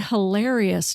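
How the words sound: The A vowel has a Midwestern sound. This is how the speaker says it after moving. "I say hilarious now"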